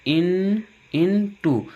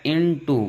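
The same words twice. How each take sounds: First: "in, into" broken into parts and pitched higher; teacher sounding out "into" piece by piece, higher; sounded out. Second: Said in the usual way. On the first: Shown as a demonstration. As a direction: lift and separate "in" before "into". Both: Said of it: "जो आई है वह छोटी की यहाँ भी ध्वनि".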